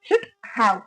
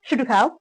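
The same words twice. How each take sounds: First: The two words are said apart, fully. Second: The two words are run together as one. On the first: "பிரிச்சு சொல்லும்போது" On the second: "சேர்த்து சொல்லும்போது இந்த மாதிரி சொல்றோம்"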